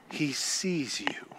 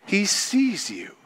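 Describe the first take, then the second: First: Soft breathy whisper, slowed down; hushed whisper to the congregation. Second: Said in the usual way. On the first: Real, not acted. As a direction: lean in and whisper it like a secret. Intimate aside in sermon.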